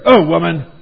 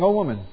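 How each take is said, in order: First: It is said in a harsh, cold tone. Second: It is said in a soft, warm tone. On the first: The speaker is being dismissive. The speaker calls it wrong. "He isn't saying there" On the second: The speaker is showing affection. The speaker calls it right. "It's a tender, endearing remark"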